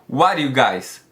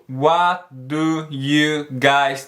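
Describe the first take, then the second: First: The words are run together in reduced form. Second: Each word is pronounced separately and fully. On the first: "o jeito que ela pronunciou ali é quase como" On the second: "ela não fala"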